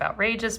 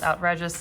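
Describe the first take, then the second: First: The middle syllable sounds like 'rage'. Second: The middle syllable sounds like 'red'. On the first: It is the ordinary word. "instead of outrageous" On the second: The name hints that the lettuce is red. "it's called outrageous ... because of, you know, it's supposed to have some red"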